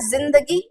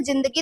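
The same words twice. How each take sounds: First: जिंदगी with a buzzing z, zindagi; buzzed z. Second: जिंदगी with a hard j, jindagi; plain j. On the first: Teacher setting Urdu sound against Hindi spelling, जिंदगी with buzzed z. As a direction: start जिंदगी on z, not j. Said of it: "वो बोलते थे जिंदगी". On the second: Teacher saying what got written in Hindi, जिंदगी with plain j. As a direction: begin जिंदगी with j as in jam. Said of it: "तो अब तो हमारे पास". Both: Shown as a demonstration.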